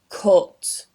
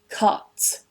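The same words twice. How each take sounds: First: The vowel is a rounded 'oo' sound. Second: The vowel is an open 'uh' sound. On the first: "this vowel actually gets changed to an U sound" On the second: "the uh vowel"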